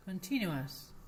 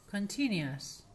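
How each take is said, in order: First: "Continuous" said as conchinuas; "ua" ending. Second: "continuous" heard close to conchinias; "ias"-like ending. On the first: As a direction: say "Continuous" with u gliding into schwa before S. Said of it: "es ua". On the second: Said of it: "la I por la U". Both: Shown as a demonstration.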